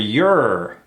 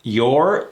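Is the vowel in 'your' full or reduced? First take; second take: reduced; full. First: The vowel before the R is dropped. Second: The vowel before the R is fully pronounced. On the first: "or not" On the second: "that vowel could be either pronounced"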